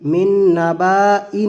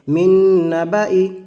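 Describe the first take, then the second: First: A long a sound is voiced after the b. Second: No long a sound is voiced after the b. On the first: The speaker calls it wrong. "नहीं पढ़ेंगे" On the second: The speaker calls it right. "बल्कि"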